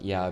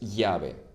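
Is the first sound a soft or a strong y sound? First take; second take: soft; strong. First: The first sound is a light, ordinary y. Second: The first sound is a stronger, more forceful y. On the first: The speaker calls it wrong. "So it's not llave" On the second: The speaker calls it right. "you have to stress it a bit more than the normal Y"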